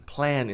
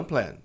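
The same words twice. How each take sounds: First: PLAN with long E-like vowel; PLAN, cat vowel; correct pronunciation of plan. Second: PLAN with a Portuguese nasal A; wrong pronunciation of plan. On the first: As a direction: say "plan" as "plaen" with clear N. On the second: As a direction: say "plan" as "plun". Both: Shown as a demonstration. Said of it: "Plan e não plan".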